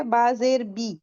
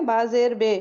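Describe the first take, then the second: First: بی with a pure, long Arabic ee; maroof vowel. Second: بے with the Urdu e sound, as in the letter name; majhool vowel. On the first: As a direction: say بی as a clean long ee, not the Urdu e. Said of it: "معروف کیسے پڑھیں گے". (بی کو خالص لمبی ای کی آواز سے، معروف) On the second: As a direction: show the wrong Urdu-style بے. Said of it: "اور مجہول کیسے پڑھیں گے". (بے کو اردو والی ای کی آواز سے، مجہول) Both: Shown as a demonstration.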